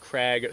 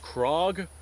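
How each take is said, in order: First: The vowel sounds like an open 'ah'. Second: The vowel sounds like a rounded 'oh'. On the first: This is how most people in the United States say it. "most people pronounce it Krag" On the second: This is how Norwegians say the name. "I was told the correct pronunciation is Krog"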